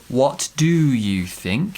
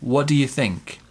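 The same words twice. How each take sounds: First: Each word of 'do you' is said separately. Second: The words 'what do you' run together. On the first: The speaker calls it wrong. "It's not" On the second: The speaker calls it right. "push the first three words together"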